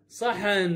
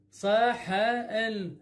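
First: Said in the usual way. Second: صحن very slowly as "saa, haa, enn"; broken into sounds. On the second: Shown as a demonstration. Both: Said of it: "بهذا الشكل اللفظه".

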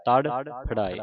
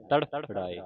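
First: ਤੜਫੜਾਏ with ਫ carried onto ੜਾਏ; wrong syllable split. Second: ਤੜਫੜਾਏ with ਫ closing the first part; corrected syllable split. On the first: Teacher copies congregations' misreading, ਤੜਫੜਾਏ split before ਫ. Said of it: "ਇਸ ਤਰ੍ਹਾਂ ਨਹੀਂ ਪੜ੍ਹਨਾ". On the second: Teacher shows where ਫ belongs, ਤੜਫੜਾਏ split after ਫ. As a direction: say ਤੜਫੜਾਏ split as ਤੜਫ-ੜਾਏ. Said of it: "ਫੱਫਾ ਇਸ ਬੰਨੇ ਲਾਉਣਾ ਹੈ". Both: Shown as a demonstration.

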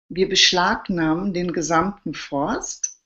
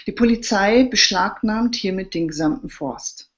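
First: Slow, chuckling echo of the decree; amused disbelief. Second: Mock-formal decree; official announcement. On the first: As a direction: repeat it slowly, half laughing. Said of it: "er gluckste". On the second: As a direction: proclaim it like an official notice. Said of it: "Ende der Durchsage". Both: A narrator's reading.

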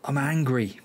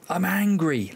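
First: Said in the usual way. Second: Venting at his own team; real exasperated outburst. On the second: Real, not acted. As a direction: let the frustration burst out.

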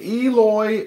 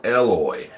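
First: "Eloy" opening on a high, drawn-out EE; long-E first syllable. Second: "Eloy" opening like the letter L; short E at the start of "Eloy", as in "bell"; short-E first syllable. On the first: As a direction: say "Eloy" as EE-loy. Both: Shown as a demonstration. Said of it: "Second one".

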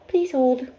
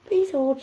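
First: Pet voice, louder, higher; voicing the dog. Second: Pet voice, louder; bossy little dog voice; voicing the dog again. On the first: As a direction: speak for the dog, a bit bossy. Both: Owner voicing her dog asking to wait. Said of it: "she says".

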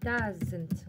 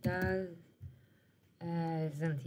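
First: Doesn't drawn out slowly as DAZ-int; slow demo. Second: Doesn't said again through a real laugh, softer and lower. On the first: Shown as a demonstration. Teacher showing pupils the contraction, slow demo. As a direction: spell out doesn't slowly for the class. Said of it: "مثال لما نقول لك does not". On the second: Real, not acted. Teacher correcting herself after a slip, laughing. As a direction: laugh it out as you fix the slip. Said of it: "سوري".

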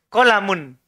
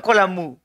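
First: Kolamun with a clear final n; correct pronunciation. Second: Kolamu with the final n dropped; wrong pronunciation. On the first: Teacher models the right word for the class, Kolamun with the n. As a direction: finish Kolamun firmly on the n. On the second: Teacher mimics the student's error, saying kolamu without the final n. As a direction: say kolamu cut short, ending on the open u. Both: Shown as a demonstration. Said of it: "Bukan kolamu".

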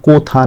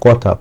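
First: "কোথা" said as koh-tha; rejected o-vowel. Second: "কথা" said as kaw-tha; correct open vowel. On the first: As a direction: round the first vowel of "কোথা" to "oh". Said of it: "কোর মতো উচ্চারণ করা হচ্ছে না". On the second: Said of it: "কর মতোই উচ্চারণ করা হচ্ছে". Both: Shown as a demonstration.

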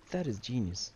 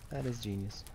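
No difference in how they are said.

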